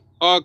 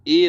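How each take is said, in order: First: The vowel is a short weak 'uh' sound. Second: The vowel is a full 'ay' sound. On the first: The speaker calls it right. "बल्कि अ कहते हैं" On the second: The speaker calls it wrong. "उसे ए नहीं"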